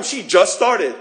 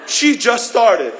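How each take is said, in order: First: Loud, offended complaint; jealous grumble; indignant complaint. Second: "She just started" slow and louder, "She" leaned on; hammed-up emphatic repeat; stressed repeat. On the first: Retold or imitated. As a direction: say it like it's unfair. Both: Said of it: "And you start complaining".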